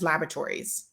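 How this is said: It is said with an American pronunciation. "I've always said it the American way"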